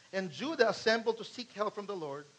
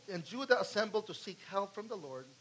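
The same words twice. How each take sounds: No difference in how they are said.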